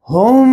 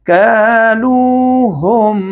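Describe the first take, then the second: First: हुम with a held nasal hum on the म; wrong nasal hum. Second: कालूहुम with the final म clearly closed and pronounced, no nasal hum; correct izhar. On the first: Sung, teacher shows students the wrong हुम. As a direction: say हुम humming the म through the nose. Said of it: "नहीं पढ़ेंगे". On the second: Teacher shows students the right कालूहुम, slowly. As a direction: say कालूहुम slowly, the म plain and distinct. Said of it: "तो यहाँ पढ़ेंगे". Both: Shown as a demonstration.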